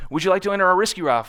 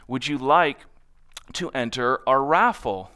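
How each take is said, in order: First: Fast, higher, louder sales patter; rapid-fire pitch. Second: Unhurried, slower question; slower pitch. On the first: Natasha pitching the raffle at the booth, fast. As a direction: rattle it off at passersby. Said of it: "she can talk really, really fast". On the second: Natasha using the simplified pitch, slower. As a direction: take your time and ask simply. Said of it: "And so then she changed it". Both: Retold or imitated.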